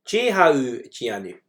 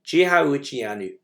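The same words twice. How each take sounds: First: "Jehu Gianu" said slowly and clearly, each syllable drawn out; Gaelic model phrase. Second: "Jehu Gianu" again slow and deliberate, falling at the end; Gaelic model phrase repeated. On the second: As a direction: say "Jehu Gianu" slowly for the class to copy. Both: Shown as a demonstration. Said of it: "So you'll hear both Jehu Gianu".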